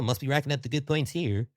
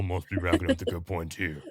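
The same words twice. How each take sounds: First: It is said in a silly, comedic put-on voice. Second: It is said in a deeper, plainer voice. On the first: "That was just done for comedic" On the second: "the voice is usually deeper in my head"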